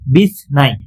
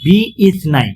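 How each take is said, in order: First: The vowel after bi is dropped and joined. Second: The vowel after bi is pronounced separately. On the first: "মিলিয়ে পড়ছি" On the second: "মূলত"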